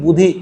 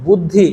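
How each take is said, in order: First: বুধি with a single ধ, no doubling; dropped consonant. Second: Said in the usual way. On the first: Shown as a demonstration. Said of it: "দটা লোপ পেয়েছে". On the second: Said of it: "বুদ্ধিটা হয়ে গেছে কি বুধি".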